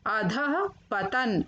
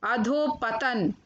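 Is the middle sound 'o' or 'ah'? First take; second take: ah; o. First: The middle has an 'ah' with breath. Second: The middle has an 'o' vowel. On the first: The speaker calls it right. "फिर उनका शुद्ध उच्चारण" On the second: The speaker calls it wrong. "पहले number पर अशुद्ध शब्द"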